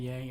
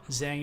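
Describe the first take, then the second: First: The word begins with a y sound. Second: The word begins with a zh sound. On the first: This is how it is said in a southern accent. "how I pronounce it in my accent, southern" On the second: This is the official standard pronunciation. "the language's official pronunciation"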